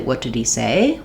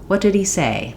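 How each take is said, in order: First: The voice rises at the end. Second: The voice falls at the end. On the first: The speaker calls it wrong. "we're not going to say, ... We're not going to rise at the end" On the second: The speaker calls it right. "I'm still falling off"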